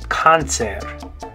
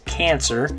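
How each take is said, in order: First: It is pronounced with Spanish 'ah' vowels. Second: It is pronounced with English vowels. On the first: "but in Spanish, you're going to say cáncer" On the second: "The way we say it is cancer"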